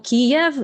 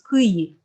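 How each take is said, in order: First: The name is pronounced the Russian way. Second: The name is pronounced the Ukrainian way. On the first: "Kiev is a Russian pronunciation" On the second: "it's supposed to represent how it's pronounced in Ukrainian"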